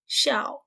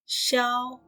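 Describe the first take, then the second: First: The syllable is said without a marked tone. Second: The syllable is said with a high level tone.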